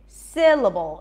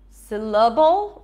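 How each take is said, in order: First: The first vowel is full and stressed. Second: The first vowel is reduced to a schwa. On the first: The speaker calls it right. "Si, syllable" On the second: The speaker calls it wrong. "It's not syllable, right?"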